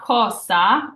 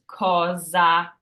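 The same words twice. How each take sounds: First: The middle consonant is a hissing S sound. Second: The middle consonant is a buzzing Z sound. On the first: The speaker calls it wrong. "it's not cosa" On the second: The speaker calls it right. "The hard or the Z zipper sound"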